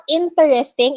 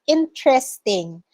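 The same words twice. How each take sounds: First: Interesting as the local mispronunciation; wrong interesting. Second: Interesting said the proper way; correct interesting. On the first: Teacher showing students the wrong interesting. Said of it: "it's not interesting". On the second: Teacher correcting a student's interesting. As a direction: give the right interesting. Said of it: "it's interesting". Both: Shown as a demonstration.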